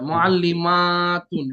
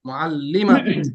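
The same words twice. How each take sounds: First: The vowel after the m is drawn out long. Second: The vowel after the m is short and quick. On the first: It is the plural form. "মা কিন্তু একালিফ টান আছে" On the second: It is the singular form. "মুআল্লিমাতুন তাড়াতাড়ি না?"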